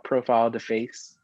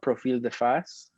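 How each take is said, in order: First: The name is said with an English accent. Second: The name is said with a French accent.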